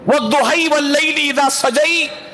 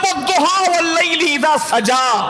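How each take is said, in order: First: Endings are bent toward 'ay', a non-Quraysh dialect. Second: Endings are open 'a', the Quraysh dialect.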